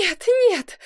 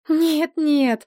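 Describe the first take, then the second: First: High, tearful wail; crying, acted. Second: Higher, quick denial without tears; denying. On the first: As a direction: wail it in theatrical despair. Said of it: "плакала". (плача, высоким голосом) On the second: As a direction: brush off the accusation. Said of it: "покачала головой Розамунда". (отрицая, без слёз) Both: A narrator's reading.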